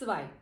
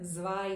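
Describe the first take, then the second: First: The word starts with a ts sound. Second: The word starts with a buzzing z sound. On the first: The speaker calls it right. "ત અડધો ને સ" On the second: The speaker calls it wrong. "But it's completely wrong"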